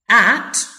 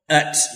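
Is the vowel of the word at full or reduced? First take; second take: full; reduced. First: The word is said with a full vowel. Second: The word is said with a reduced vowel. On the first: "for the strong" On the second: "for the weak"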